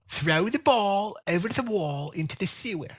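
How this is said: It is said in a put-on Brooklyn accent.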